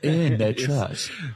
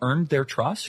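First: It is said in a put-on English accent. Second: It is said in an ordinary American accent.

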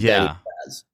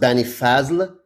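First: The name ends with a Z sound. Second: The name ends with an L sound. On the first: This is the simplified form that is easier to say. "I took the L off" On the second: This is the name's original Arabic form. "it's actually pronounced Banifazl"

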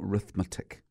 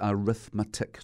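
First: The word begins with the r sound, no vowel. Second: The word begins with a vowel sound before r. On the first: The speaker calls it wrong. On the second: The speaker calls it right.

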